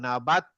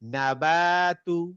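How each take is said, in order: First: The word ends abruptly on the t sound. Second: The word ends with a short vowel after t. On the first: The reader stops at this word. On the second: The reading continues without a stop.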